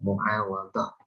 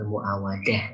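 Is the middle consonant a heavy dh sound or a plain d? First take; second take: heavy dh; plain d. First: The middle consonant is a heavy dh sound. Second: The middle consonant is a plain d sound. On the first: The speaker calls it right. "yang betul itu bacanya muawadah" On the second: The speaker calls it wrong. "bukan muawadah ya"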